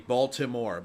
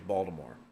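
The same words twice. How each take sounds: First: It is said with a clear T sound. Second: It is said in a Maryland accent, T like D.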